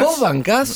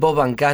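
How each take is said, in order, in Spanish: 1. Se dice como pregunta, con la entonación subiendo. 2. Se dice de forma plana, como afirmación simple. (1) "Ah, ahora sí" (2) "No digas vos bancás, pregúntale"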